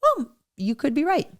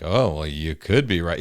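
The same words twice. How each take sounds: First: Soft, gentle concession offered honestly; mean it, softly; sincere. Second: A grudging, sarcastic brush-off; dismissive. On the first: Husband showing how to say it to a spouse, sincerely. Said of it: "not saying it like". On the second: Husband showing the wrong way to concede, dismissively. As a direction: say it like you don't mean it. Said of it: "doing it in such a way that you're not saying it like". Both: Shown as a demonstration.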